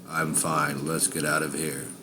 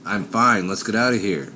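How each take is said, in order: First: It is said in a flat monotone. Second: It is said in an angry tone.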